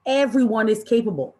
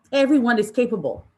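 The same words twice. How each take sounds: The two takes are said the same way.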